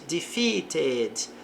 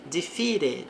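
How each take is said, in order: First: The middle T is a clear T sound. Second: The middle T sounds like a quick R.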